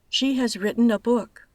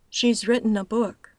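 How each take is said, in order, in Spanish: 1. El verbo se dice como una palabra completa. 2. El verbo se reduce a un sonido s.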